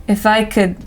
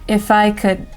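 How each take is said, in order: Both takes have the same delivery.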